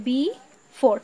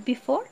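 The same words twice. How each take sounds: First: "before" pulled apart as be, pause, fore; very slow "before", a gap between its two syllables; split into syllables. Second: Said in the usual way. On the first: Shown as a demonstration. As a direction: break "before" in two for the class. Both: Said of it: "এই যে before".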